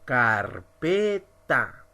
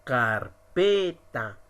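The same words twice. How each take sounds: First: 'carpeta' in three separate syllables; silabeado. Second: Slow 'Carpeta', leaning on 'pe'; stress on PE. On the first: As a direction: sound out car, pe, ta one by one. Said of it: "Ahora vamos a pronunciar". ('carpeta' sílaba por sílaba: car-pe-ta) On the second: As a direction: draw out 'Carpeta' with the force on PE. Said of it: "que tiene más fuerza que las demás". ('Carpeta' lento, con fuerza en 'pe') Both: Shown as a demonstration.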